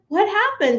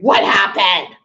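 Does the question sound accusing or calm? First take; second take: calm; accusing. First: The question is asked in a calm, neutral tone. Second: The question is asked in an accusing tone. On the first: The speaker just wants information. The speaker calls it right. "None of that. It's like" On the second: The listener is being blamed. The speaker calls it wrong. "I wouldn't do that in a voice of accusing"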